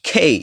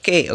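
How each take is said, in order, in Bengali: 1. k aspirated, সঙ্গে গড়ানো স্বরধ্বনি। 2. k সাধারণ, সঙ্গে ছোট স্বরধ্বনি। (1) "কি খেই" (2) "নট কে"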